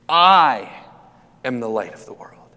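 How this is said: The stress is on the word I.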